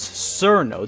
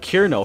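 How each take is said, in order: First: The name is read as English spelling suggests. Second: The name begins with a hard K sound. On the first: "other Westerners say it as Cerno due to how it's written in Latin characters" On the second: "for those monsters who pronounce C as a K"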